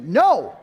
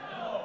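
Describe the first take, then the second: First: A loud, emphatic No, fast; firm no with conviction. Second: Said in the usual way. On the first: Shown as a demonstration. Pastor showing the congregation how to refuse, loud and firm. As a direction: slam the door shut with one word. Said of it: "you gotta say it with conviction". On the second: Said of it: "say it with conviction".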